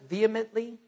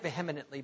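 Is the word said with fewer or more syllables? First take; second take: fewer; more. First: The word is said with fewer syllables. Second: The word is said with an extra syllable. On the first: "Is the right way to pronounce it vehemently?" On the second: "I like vehemently better. I think I'm adding a syllable"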